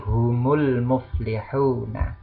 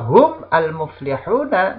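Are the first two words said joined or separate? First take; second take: joined; separate. First: Hum joins the next word with an added u vowel. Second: Hum and al are said as separate words.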